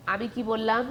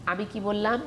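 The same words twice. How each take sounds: The two takes are said the same way.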